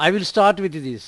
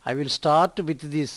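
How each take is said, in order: First: Said in the usual way. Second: Stretched out, word by word; slow model sentence. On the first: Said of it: "first plain reading before slow demo". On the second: Shown as a demonstration. Teacher repeating the sentence slowly for Telugu learners. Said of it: "slow model reading".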